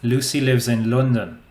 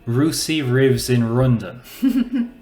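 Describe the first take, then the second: First: The L sounds are all pronounced clearly. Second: The L sounds are confused with another sound. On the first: The speaker calls it right. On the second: The speaker calls it wrong.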